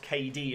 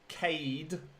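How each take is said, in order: First: The name is said as two syllables. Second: The name is said as one syllable. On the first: The speaker calls it wrong. "not K D as people pronounce it" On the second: The speaker calls it right. "Apparently it's Cade McCann"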